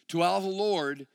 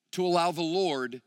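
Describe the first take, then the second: No difference in how they are said.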